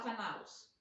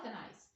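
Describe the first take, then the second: First: Canalos said as a rejected wrong form; mock wrong plural canalos. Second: Canais with the ais ending; correct plural canais. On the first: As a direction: say canalos as the plural nobody uses. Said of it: "ninguém fala canalos". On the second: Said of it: "a gente já fala canais". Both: Shown as a demonstration.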